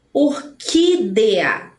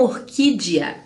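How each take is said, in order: First: "Orquídea" slowly as or-QUI-de-a; spelling pronunciation. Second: "orquídea" as or-QUI-jia; common mispronunciation. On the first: Teacher models orquídea with E, spelling pronunciation. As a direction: sound a clear DE in "Orquídea". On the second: Teacher shows the one to avoid, common mispronunciation. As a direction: soften the DE of "orquídea" into ji. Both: Shown as a demonstration. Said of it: "e não orquídea".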